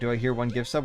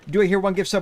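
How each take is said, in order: First: It is read in a plain voice. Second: It is read like a fast auctioneer.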